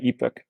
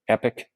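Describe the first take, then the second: First: The word is said like ee-pock. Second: The word is said like epic.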